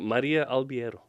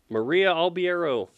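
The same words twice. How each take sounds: First: The name is said with native Portuguese pronunciation. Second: The name is said with English-style pronunciation. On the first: This is how the name is said in its own language. "as opposed to" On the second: This is how most English speakers say it. "are you okay if people are like"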